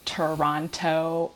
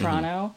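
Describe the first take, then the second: First: It is said carefully with every sound enunciated. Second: It is said quickly with sounds run together.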